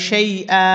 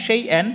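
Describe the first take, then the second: First: সেই আ ending on an open held "aa"; pausal alif stretch. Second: সেই এন with a short closing n sound; tanween ending. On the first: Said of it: "এক আলিফ টানতে হবে". (সেই আ, শেষে এক আলিফ টান) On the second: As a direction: end সেই এন on a clear, unstretched n. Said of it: "Hamza দুই জবর এন". (সেই এন, শেষে নুনের উচ্চারণ) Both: Shown as a demonstration.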